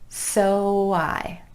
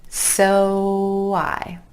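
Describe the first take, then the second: No difference in how they are said.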